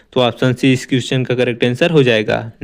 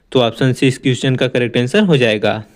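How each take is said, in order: No difference in how they are said.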